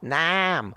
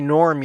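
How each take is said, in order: First: The r is dropped, leaving a broad ah vowel. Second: The r after the vowel is clearly pronounced. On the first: "you say Nam" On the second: "You don't say Norm"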